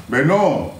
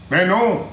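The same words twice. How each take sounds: The two takes are said the same way.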